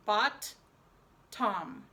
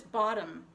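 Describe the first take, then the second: First: "Bot, tom" as two separate syllables, second like the name Tom; syllable-by-syllable spelling pronunciation. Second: Said in the usual way. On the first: Shown as a demonstration. Teacher dictating bottom to pupils, "Bot, tom" fully split. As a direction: pause after "Bot", then a crisp T on "tom".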